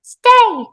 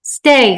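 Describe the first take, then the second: First: Very high, loud squeak; Hello the toy. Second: Loud, raised order; urgent command. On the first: Toy mimics the mother's command, squeaky echo. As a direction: squeak the order back like a toy. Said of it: "said Hello". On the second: Woman urging the toddler to stay, urgent command. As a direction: tell a small child firmly. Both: Acted.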